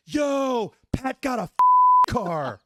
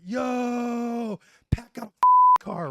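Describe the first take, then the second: First: High, loud jeering call across the room; mocking shout. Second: Much higher, louder jeering howl; repeating Barbini's taunt, shrieking high and loud; mocking shout. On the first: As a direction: yell it to roast him. Barbini mocks the car aloud. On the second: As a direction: squeal the taunt to roast him. Retelling Barbini's roast again.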